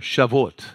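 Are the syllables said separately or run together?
run together. The syllables are run together without breaks.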